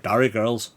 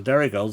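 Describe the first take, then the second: First: "Derry" with a broad Northern Irish vowel; Northern Irish accent. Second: Said in the usual way. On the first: Shown as a demonstration. Streamer demonstrating key words, Northern Irish accent on "Derry". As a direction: open "Derry" out towards "Darry", Northern Irish. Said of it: "key words to get you into be able to do a Northern Irish accent". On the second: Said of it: "That's the Derry girls that do it for you".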